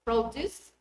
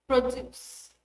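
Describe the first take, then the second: First: PROduce, stressed on PRO; noun stress. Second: ProDUCE, stressed on DUCE; verb stress. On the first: Teacher showing the noun, PROduce stressed at the front. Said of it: "noun is stressed on the first syllable". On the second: Teacher showing the verb, proDUCE stressed at the end. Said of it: "The verb is on the second". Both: Shown as a demonstration.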